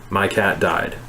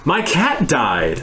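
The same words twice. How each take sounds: First: It is said flatly, with no emotion. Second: It is said with a pleased, gleeful tone.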